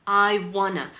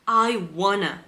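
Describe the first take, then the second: No difference in how they are said.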